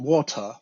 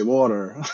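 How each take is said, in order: First: It is said in a British accent. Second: It is said in an American accent. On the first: This is how the kids say it in England. "when they are in England, they say water" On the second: This is how the kids say it in America. "in America they say water"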